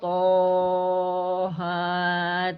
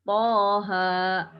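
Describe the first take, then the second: First: Both vowels are drawn out long. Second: Both vowels are held only briefly. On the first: The speaker calls it wrong. "Atau panjang semua" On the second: The speaker calls it right. "dibaca dua harokat"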